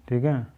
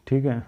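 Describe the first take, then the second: No difference in how they are said.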